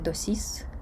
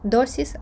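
First: The stress is on the second syllable. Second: The stress is on the first syllable. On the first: The speaker calls it wrong. "а не" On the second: The speaker calls it right. "наголос перестрибує на попередній склад"

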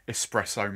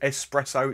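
First: The word is said carefully and clearly. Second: The word is said loosely with a nasal quality. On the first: The speaker calls it right. "said it properly then" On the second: The speaker calls it wrong. "it's my sinuses. That's how I talk"

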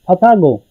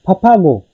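The two takes are said the same way.

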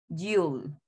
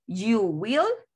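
First: It is said as one contracted syllable. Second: It is said as two full words. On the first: "en forma corta" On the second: "forma larga"

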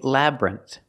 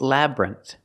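First: The word is said with two syllables. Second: The word is said with two syllables.

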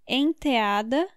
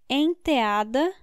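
No difference in how they are said.

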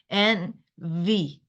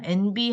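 First: The middle consonant is a v sound. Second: The middle consonant is a b sound. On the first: The speaker calls it right. "윗니랑 아랫입술" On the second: The speaker calls it wrong. "NB 하면 안 돼"

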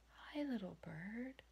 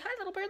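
First: It is spoken slowly and softly. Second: It is spoken quickly and energetically. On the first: The creature is made to feel safe. The speaker calls it right. "You would need to speak so calmly" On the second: The creature is frightened away. The speaker calls it wrong. "You wouldn't say"

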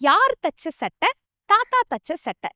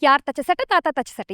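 First: The phrase is spoken slowly and carefully. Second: The phrase is spoken quickly. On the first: "ஸ்லோவா சொல்றேன்" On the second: "இது நம்ம practice பண்ணலாமா ஃபாஸ்டா?"

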